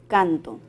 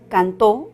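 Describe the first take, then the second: First: The stress is on the first syllable. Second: The stress is on the last syllable. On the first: I sing. "podríamos decir canto" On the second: Someone sang in the past. "en la palabra cantó"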